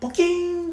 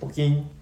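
First: The word is said at a high pitch. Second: The word is said at a low pitch. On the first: "こう高い音なのか" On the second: "こう低くこうポキンなのか"

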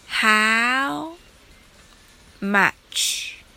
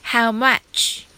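First: The phrase is said slowly. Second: The phrase is said quickly. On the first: "まずゆっくりと練習してみましょう" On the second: "次に早く言ってみましょう"

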